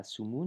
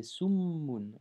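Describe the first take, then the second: First: Said in the usual way. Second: Summun slowly, with the m held long; doubled m. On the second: Shown as a demonstration. Teacher showing the shedda, slow doubled m. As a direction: press on the mm of summun. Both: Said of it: "Nous n'oublions pas la shedda".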